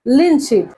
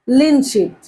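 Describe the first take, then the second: No difference in how they are said.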